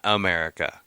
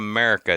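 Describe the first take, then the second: First: The first vowel is pronounced fully, like America. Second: The first vowel is dropped, like Merica. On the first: It is the ordinary name of the country. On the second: It mimics a stereotypical patriotic cheer.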